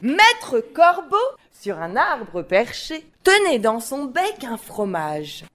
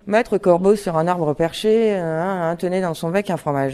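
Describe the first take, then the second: First: It is recited with lively, expressive intonation. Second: It is recited in a flat, monotone voice. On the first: The listeners are drawn into the story. The speaker calls it right. "on attire l'attention des camarades" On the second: The listeners lose interest. The speaker calls it wrong. "quand on écoute, on s'endort quand même un peu"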